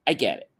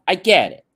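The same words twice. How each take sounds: First: Said in the usual way. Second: Louder and higher, pressing the point; emphatic. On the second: Real, not acted. Speaker conceding everyone has their own stuff, emphatic. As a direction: say it like you really mean it. Emphatic admission, then repeated plainly.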